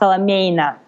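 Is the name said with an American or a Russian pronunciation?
Russian. The name is said with Russian sounds. This is the original way the surname is said. "in Russia, my uh, my brand name is my last name, so it's uh, pronounced"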